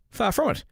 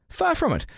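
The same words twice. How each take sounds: First: "Far from it" said higher, as a firm rebuttal; emphatic denial. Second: "Far from it" pitched very high, falling; heightened emphatic denial. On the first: Host denying he supports the politician, emphatic "Far from it". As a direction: lift "Far from it" above your usual pitch. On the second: Host insisting he is no supporter, very emphatic "Far from it". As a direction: launch "Far" very high and fall away on "from it". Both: Real, not acted.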